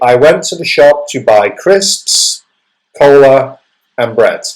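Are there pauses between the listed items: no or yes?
yes. Short pauses separate each item in the list. The speaker calls it right. "But you would say"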